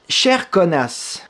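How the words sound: It is said in a put-on Québécois accent.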